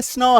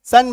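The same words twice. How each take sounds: First: "स्नो" with s sliding straight into n; s-n blend. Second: "सन" with a vowel between s and n; letter-by-letter reading. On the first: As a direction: blend "स्नो" with no vowel after the s. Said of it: "लेकिन ये स्नो है". ("स्नो", आधा स न से मिलाकर) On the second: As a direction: say "सन" as separate s and n, louder. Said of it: "अक्षर to अक्षर, तो सन बन जाएगा". ("सन", अक्षर दर अक्षर उच्चारण) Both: Shown as a demonstration.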